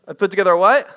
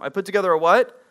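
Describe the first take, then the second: First: Louder, pushing the room to answer; louder repeat prompt. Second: Said in the usual way. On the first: Shown as a demonstration. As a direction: call it again, louder, demanding a reply.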